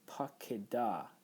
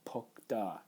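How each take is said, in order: First: It has three syllables, with an open first syllable. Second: It has two syllables, with a closed first syllable. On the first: The speaker calls it right. "you pronounce this pakeda" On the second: The speaker calls it wrong. "not pokda"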